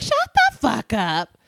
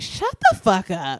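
First: Slow, drawn-out dismissal; dismissive, slower repeat. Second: Dismissive. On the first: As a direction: say it again, harder. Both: Retold or imitated. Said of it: "And I'd be like".

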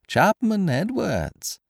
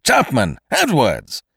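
First: Very high, slow singsong call; mocking echo. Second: Loud, high, drawn-out summons; crying out. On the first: Stranger parroting Kesselbach's call for help, mocking echo. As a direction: mimic his cry without the volume. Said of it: "echoed the stranger". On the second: Kesselbach summoning secretary and servant, crying out. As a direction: shout for both your men. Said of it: "Mister Kesselbach cried again". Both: A narrator's reading.

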